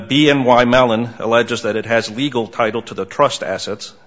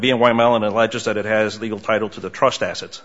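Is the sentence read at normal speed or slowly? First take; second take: slowly; normal speed. First: It is read slowly. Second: It is read at normal speed.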